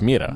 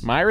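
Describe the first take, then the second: First: The name is given a non-English pronunciation. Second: The name is given an English pronunciation. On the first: This is the original form of the name. "Mira is, it's Mira" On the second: This is the anglicized form of the name. "Myra is the English pronunciation"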